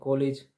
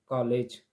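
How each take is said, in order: First: The first vowel is a rounded 'o' sound. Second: The first vowel is between 'aa' and 'o'. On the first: The speaker calls it wrong. "कभी बोल देते हैं कॉलेज" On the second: The speaker calls it right. "मतलब दोनों के बीच की स्थिति होना चाहिए"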